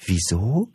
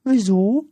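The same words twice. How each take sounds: First: Puzzled echo in a natural, higher voice; saleswoman's surprised echo, no squeak. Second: Very high, loud squeaky question; squeaky creature asking, rising at the end; cheeky little creature. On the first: A narrator's reading. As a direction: repeat WIESO as a rising question. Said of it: "wiederholte sie". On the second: Acted. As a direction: pipe WIESO up like an impish creature.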